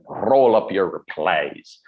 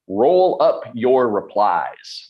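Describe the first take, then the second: First: It is said in a put-on Scottish accent. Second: It is said in the speaker's ordinary accent.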